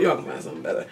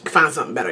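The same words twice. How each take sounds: First: Whispered aside. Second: Said in the usual way. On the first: Real, not acted. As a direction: breathe it as a secret.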